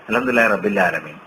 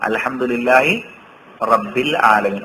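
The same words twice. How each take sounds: First: The letters run together and the sounds are merged. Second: Each letter is pronounced clearly and kept separate. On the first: The speaker calls it wrong. "അങ്ങനെ ഓതാൻ പാടുണ്ടോ?" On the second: The speaker calls it right. "ശരിക്ക് അക്ഷരങ്ങൾ തിരിച്ചാണ്"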